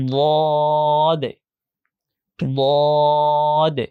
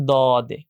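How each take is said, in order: First: Long, heavy "দ" with rounded o, then short "দে"; thick, heavy pronunciation. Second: Said in the usual way. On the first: Shown as a demonstration. Teacher shows what thickening does, heavy letter demo. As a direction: thicken and stretch "দ" before "দে". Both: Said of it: "আর মোটা করতে পারলে".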